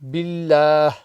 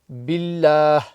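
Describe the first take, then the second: First: The word ends with a soft h sound. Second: The same.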